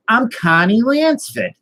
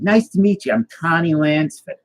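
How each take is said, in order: First: Much higher, slow, drawn-out Boston impression; high, emphatic mock Boston accent; insistent Boston accent. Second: Imitated Boston introduction, high-pitched; higher-pitched Boston accent impression. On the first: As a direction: repeat your name slowly and insistently in broad Boston. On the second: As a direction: greet them in a put-on Boston accent. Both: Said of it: "why do you have a Boston accent".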